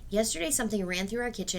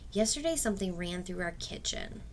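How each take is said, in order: First: It runs straight on without stopping after kitchen. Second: It stops with a breath after kitchen. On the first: The sentence keeps going without ending. The speaker calls it wrong. "then I start going on" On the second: The sentence ends there. The speaker calls it right. "I think we need to take a breath there. Period"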